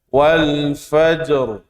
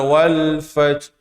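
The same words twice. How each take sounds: First: The j is released with a clear echoing bounce. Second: The j is closed off without any echoing bounce. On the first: The speaker calls it right. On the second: The speaker calls it wrong.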